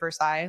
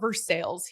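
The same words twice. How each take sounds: First: It is said with a French pronunciation. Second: It is said with an English, local pronunciation. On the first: This is the original name of the French city. The speaker calls it right. "like the city of Versailles, like it's French" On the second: This is how the locals say the town's name. The speaker calls it wrong. "They call it Versailles here"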